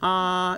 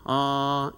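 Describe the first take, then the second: First: The vowel sounds higher, with a wide smiling mouth. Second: The vowel sounds lower, with a neutral mouth. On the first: "입꼬리를 올려서 가로로 벌리면 아 이렇게 소리가 높아지잖아요" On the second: "아 이렇게 하던 것을"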